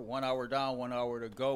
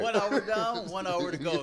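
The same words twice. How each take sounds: First: It is said flatly, with little energy. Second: It is said loudly, with much energy. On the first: The speaker calls it wrong. "say that with a smile on your face" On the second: The speaker calls it right. "Say it with your chest. ... there we go"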